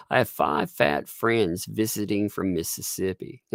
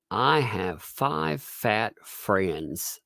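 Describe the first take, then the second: First: Said in the usual way. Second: Very slow, measured diction; pronunciation exercise. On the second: Shown as a demonstration. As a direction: recite it word by drawn-out word. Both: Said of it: "helps you afterwards to pronounce things".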